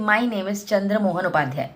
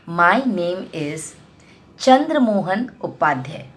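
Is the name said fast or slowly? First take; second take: fast; slowly. First: The whole sentence is rushed out quickly. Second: The name is said slowly, stressed, with a pause. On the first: The listener may not catch the name. The speaker calls it wrong. "क्योंकि आपने बहुत जल्दी बोल दिया" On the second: The listener hears the name clearly. The speaker calls it right. "Chandramohan पे जोर डालेंगे, उसके बाद थोड़ा सा पॉज"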